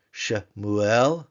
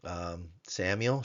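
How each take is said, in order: First: "Shemuel," louder with a rise; Hebrew Shemuel. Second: Slow English "Samuel,". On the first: Teacher gives the Hebrew name to students, louder. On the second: Teacher gives the English form of the name to class, slowly. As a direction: contrast with the anglicized "Samuel,". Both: Shown as a demonstration. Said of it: "It could be a name, like".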